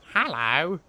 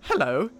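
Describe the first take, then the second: First: It is said in a put-on monster voice. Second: It is said in a plainer, less characterful voice. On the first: The speaker calls it right. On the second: The speaker calls it wrong.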